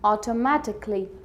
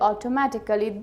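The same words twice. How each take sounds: First: The ending is reduced. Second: The ending is said in full. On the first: The speaker calls it right. "You have to say" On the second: The speaker calls it wrong. "These pronunciations are wrong"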